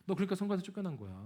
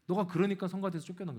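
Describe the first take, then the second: First: Quick, light mocking tease, fast; teasing jab. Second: Said in the usual way. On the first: Preacher imitates sister teasing him, quick and mocking. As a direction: toss off the dig breezily, as if laughing. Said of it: "하면서 웃으면서 얘기해요". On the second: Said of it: "웃으면서 얘기해요".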